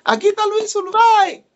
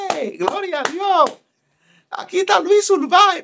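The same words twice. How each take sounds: First: High, loud proclaiming cry; excited announcement. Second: High, hammed-up shout of glory to God; excited announcement. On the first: Retold or imitated. Young preacher repeating the name to the church, high proclaiming cry. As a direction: announce him to the whole church, triumphant. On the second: Young preacher announcing Luis Urbáez to the church, high excited shout. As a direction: call him out to the crowd like a fired-up preacher.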